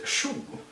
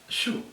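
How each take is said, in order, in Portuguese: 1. A palavra é dita por completo, com duas sílabas. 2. A palavra é encurtada para uma única sílaba. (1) "o jeito que é escrito é chugo" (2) "o jeito que eu falo é shug"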